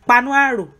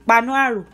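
The two takes are said the same way.

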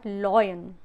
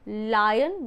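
First: The first vowel sounds like 'oy'. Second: The first vowel sounds like 'eye'. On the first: The speaker calls it wrong. "not loyan" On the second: The speaker calls it right. "It's lion"

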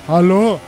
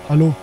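First: The word is shouted loudly. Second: The word is said at a normal, quiet volume. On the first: "wie immer wieder geschrien hast" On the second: "Ich hab nur hallo gesagt"

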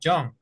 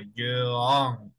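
First: The word is said as one single syllable. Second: The word is split into two separate syllables. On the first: The speaker calls it right. "Es una sola sílaba" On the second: The speaker calls it wrong. "No podemos separar como young"

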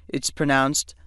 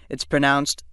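The two takes are said the same way.

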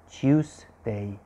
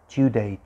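First: The S sound is clearly emphasized. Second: The S sound is weak or dropped. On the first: The speaker calls it right. "You need to emphasize the S" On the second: The speaker calls it wrong. "not Tuesday"

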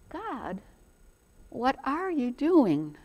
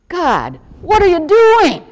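First: It is asked in a curious, wondering tone. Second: It is asked in a frustrated, complaining tone. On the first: The asker sincerely wants to understand. The speaker calls it right. "if you take the time to say" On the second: The asker is complaining about the disruption. The speaker calls it wrong. "Instead of, ... What are you doing to my world, God? Everything is topsy-turvy"

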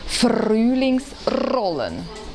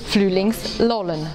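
First: The R is rolled with the tongue tip. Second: The R sounds are replaced by L sounds. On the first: "Spanisch Sprechende rollen das R" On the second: "Sie ersetzen den Buchstaben R durch ein L"

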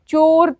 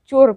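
First: The vowel is stretched out long. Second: The vowel is said quickly and short. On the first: The speaker calls it wrong. "चोर तो नहीं बोलते हैं" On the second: The speaker calls it right. "चोर बोलते हैं"

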